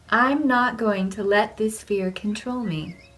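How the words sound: It is said with strong, heartfelt conviction.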